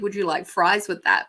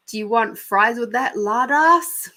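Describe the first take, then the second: First: Said in the usual way. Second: Higher, louder mock drive-through jibe; tag overheard drive-through worker's insult. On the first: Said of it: "They would have said". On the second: Fed-up drive-through worker to customer, mock insulting. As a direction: throw in the insult, rising on LARD ASS. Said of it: "And I heard".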